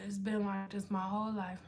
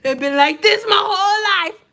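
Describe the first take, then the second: First: Low, very soft murmur; quiet mutter. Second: High, loud plaintive holler; loud mock wail. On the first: Real, not acted. Streamer answering a viewer about eyebrows, quiet mutter. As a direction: say it under your breath. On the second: Streamer insisting to viewers about eyebrows, loud mock wail. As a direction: cry it out in hammed-up protest.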